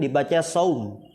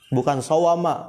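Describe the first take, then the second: First: It is read as one syllable, saum. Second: It is read as three syllables, sawama. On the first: The speaker calls it right. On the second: The speaker calls it wrong.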